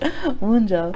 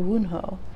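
First: The middle consonant is a J sound. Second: The middle consonant is an H sound. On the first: The speaker calls it right. "they don't say the H" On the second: The speaker calls it wrong. "I'm trying to pronounce the J like an H"

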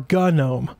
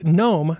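First: The word starts with a hard G sound. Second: The word starts with an N sound.

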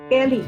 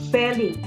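First: The word begins with a plain P sound. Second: The word begins with a careful F sound. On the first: This is the everyday, natural way of saying it. "Kapag ka binigkas mo siya ng natural, binigkas ng natural ng Kapampangan yan, peri lang" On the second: This is the careful, deliberate way of saying it. "Kapag ka hindi natural"

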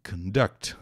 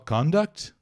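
First: The stress is on the second syllable. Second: The stress is on the first syllable. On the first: It is the verb meaning to carry out. "sílaba tônica é a segunda" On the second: It is the noun meaning behavior or conduct. "o substantivo é só conduct"

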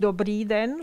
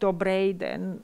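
First: The first word ends in a long ee vowel. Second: The first word ends in an ay-like diphthong. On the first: This is the standard form. "nicht Dobrý den" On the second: This is the colloquial form. "sondern Dobrej den"

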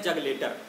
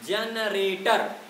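First: The word sounds like 'jag letter' with an l. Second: The word sounds like 'generator' with n and r. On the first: The speaker calls it wrong. "जैसे हम शब्द को कहते हैं जग लेटर" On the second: The speaker calls it right. "शब्द हमारा है जनरेटर"

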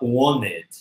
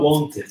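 First: The t after the n is dropped. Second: The t after the n is pronounced. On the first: The speaker calls it right. "a gente fala wanted" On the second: The speaker calls it wrong. "aqui a gente não fala wanted"

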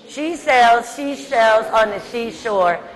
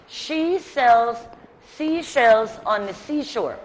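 First: It is said as fast as possible. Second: It is said at a slower pace.

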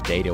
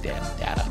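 First: The first vowel sounds like 'day'. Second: The first vowel sounds like 'dah'. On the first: It does not sound like a baby's word for father. The speaker calls it wrong. "data wasn't really working for that joke" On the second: It sounds like a baby's word for father. The speaker calls it right. "It's got to be data"

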